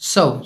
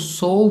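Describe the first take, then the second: First: The vowel sounds like the one in 'cup'. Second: The vowel sounds like the one in 'saw'. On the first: The speaker calls it right. "इसका सही उच्चारण क्या है?" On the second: The speaker calls it wrong. "ये बहुत सारे बच्चे गलत बोलते हैं"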